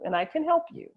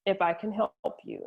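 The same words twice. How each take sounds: First: "can" lifted high in pitch; reassure, with pitch raised on "can"; emphatic assurance. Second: Said in the usual way. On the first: Retold or imitated. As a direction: stress CAN as a firm promise. Father turns the if into assurance.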